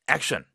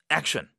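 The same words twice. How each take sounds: Both takes have the same delivery.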